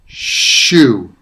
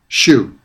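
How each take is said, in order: First: The first sound is stretched out long. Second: The first sound is short and ordinary. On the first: "I'm making the sounds longer than they usually are" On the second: "what those words sound like in everyday pronunciation"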